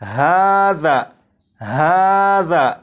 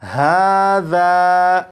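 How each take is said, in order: First: The final vowel is cut short. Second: The final vowel is drawn out long. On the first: "अगर आप यहां से अलिफ को हटा दें" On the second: "जाल के बाद अलिफ लगाकर पढ़ें"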